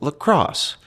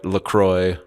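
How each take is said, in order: First: The name ends with an 'oss' sound. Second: The name ends with an 'oy' sound. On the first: The speaker calls it wrong. "you're supposed to pronounce it lacrosse" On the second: The speaker calls it right. "LaCroix like enjoy"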